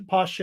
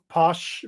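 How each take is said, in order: First: "poche" in two syllables, POSH-ay; pronunciation attempt. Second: "posh" as one drawn-out syllable; slow one-syllable try at "posh"; pronunciation attempt. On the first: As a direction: add a vowel after the sh in "poche". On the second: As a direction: stop "posh" on the sh, no final vowel. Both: Shown as a demonstration. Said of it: "I think that's how it's pronounced".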